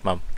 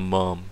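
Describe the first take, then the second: First: The word is said in a non-American accent. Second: The word is said in an American accent. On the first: "like we call mom, mum" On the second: "In the American accent"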